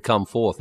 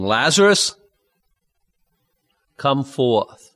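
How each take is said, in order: First: Said in the usual way. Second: A mild call of "Lazarus, come forth"; loud cry. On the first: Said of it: "if he just said". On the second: Acted. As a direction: call Lazarus out of the tomb with a light raise of the voice. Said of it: "he cried with a loud voice".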